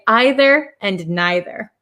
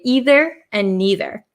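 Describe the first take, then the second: First: The words use the other common pronunciation. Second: The words use the speaker's own Wisconsin pronunciation. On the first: This is how some other people say it. "some people say" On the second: This is how the speaker normally says it. "my pronunciation as an American from Wisconsin, I say"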